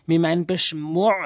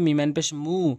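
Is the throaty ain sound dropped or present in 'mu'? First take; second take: present; dropped. First: The throaty ain sound is pressed out clearly. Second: The throaty ain sound is left out. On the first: The speaker calls it right. "চাপ দিয়ে উচ্চারণ করবেন" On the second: The speaker calls it wrong. "এরকম যেন না হয় ... তাহলে আইনের উচ্চারণ বাদ যাবে"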